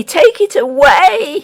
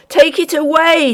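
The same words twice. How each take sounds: First: High and slow, stretched in agony; the miller pleading, slower and more broken; dragged-out shriek. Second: High, frantic plea to lift the load; the miller begging the ghost to remove the weight; terrified shriek. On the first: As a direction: draw the words out, pained and desperate. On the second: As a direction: shriek it out in panic. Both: A narrator's reading. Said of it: "he shrieked".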